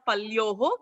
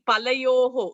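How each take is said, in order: First: The middle vowel is dropped. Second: The middle vowel is said fully. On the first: The speaker calls it wrong. "It's not palyoho" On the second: The speaker calls it right. "we should be conscious in saying the full word, full akshara"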